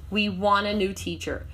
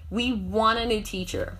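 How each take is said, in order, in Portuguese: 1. Want e a são unidos em wanna. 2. Want e a são unidos em wanna.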